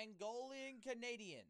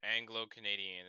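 First: "Angolan Canadian" said slowly, with Angolan like the country; mispronounced Anglo. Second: "Anglo-Canadian" said as ANG-glo, with a clear G; corrected pronunciation. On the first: Reading the tier list aloud, slow mispronounced Angolan. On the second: Friend correcting the mispronunciation, firm Anglo. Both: Real, not acted.

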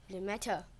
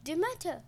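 First: Low, hushed recognition of a goddess; name the goddess in subdued awe; understated gasp. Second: High, rising-falling exclamation; astonished gasp. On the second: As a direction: cry out the name in shock. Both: A narrator's reading. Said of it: "The queen gasped".

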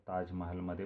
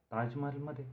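First: Said in the usual way. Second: High astonished echo question; wide-eyed surprise. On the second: A narrator's reading. Arvind hearing of the Taj party, wide-eyed surprise. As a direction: lift the pitch sharply in disbelief. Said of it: "डोळे विस्फारित अरविंदने विचारलं".

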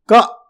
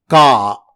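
First: KA said with a brief, cut-short vowel; short syllable. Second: KA with the vowel held long, KAA; long syllable. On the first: Teacher showing listeners a Laghu syllable, short vowel in Ka. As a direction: keep the vowel in KA short and quick. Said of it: "or short". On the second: Teacher showing listeners a Dirgh syllable, long drawn vowel in Ka. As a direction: stretch out the vowel in KA, louder and sustained. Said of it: "is Dirgh or long syllable". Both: Shown as a demonstration.

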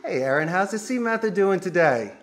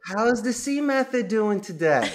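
First: Upbeat stress on "C Method"; proud company name. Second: Slow, proud emphasis on "C method"; proud company name. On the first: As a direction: greet with a bright, proud "how's the C Method". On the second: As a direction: say "How's the C method" warmly and with pride. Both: Shown as a demonstration. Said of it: "you say the company name better than".

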